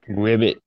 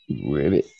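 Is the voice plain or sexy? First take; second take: plain; sexy. First: It is said in a plain voice. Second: It is said in a put-on sexy voice.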